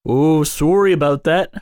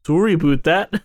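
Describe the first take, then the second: First: Put-on Canadian "sorry" with "about" left nearly standard; mock-Canadian apology, missing the "aboot"; half-right Canadian accent; botched Canadian accent. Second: Mock-Canadian apology with "about" as "aboot"; put-on Canadian, rhyme "about" with boot; exaggerated Canadian "aboot"; corrected Canadian accent. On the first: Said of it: "you actually messed that up". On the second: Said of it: "It's sorry about that".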